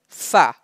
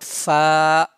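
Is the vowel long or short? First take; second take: short; long. First: The vowel is short and not stretched. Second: The vowel is stretched out long. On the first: The speaker calls it right. "just like fa" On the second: The speaker calls it wrong. "not fa"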